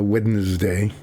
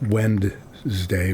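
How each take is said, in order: First: The N sound comes after the D sound. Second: The N sound comes before the D sound. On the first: The speaker calls it right. "It's D N, so Wednesday" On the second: The speaker calls it wrong. "easy to say it incorrectly, Wednesday with the N D"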